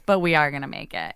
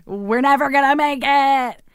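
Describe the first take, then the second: First: Said in the usual way. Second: High, slow mock wail of defeat; retold despair. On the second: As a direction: stretch it out like a hammed-up lament. Acting out past despair, then corrects.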